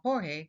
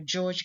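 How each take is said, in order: First: The name is said like Spanish Jorge. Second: The name is said like English George. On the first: The speaker calls it right. "the correct pronunciation it should be" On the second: The speaker calls it wrong. "in my previous video, I said"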